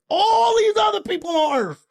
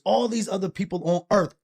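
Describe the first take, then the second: First: Exasperated shout. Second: Said in the usual way. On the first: Acted. Man protesting to an alien about other people on Earth, exasperated shout.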